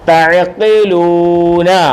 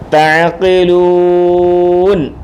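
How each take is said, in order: First: The word ends with a short final vowel. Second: The word ends on the final consonant, no vowel. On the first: The reading continues without stopping. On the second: The reader stops here at a full stop.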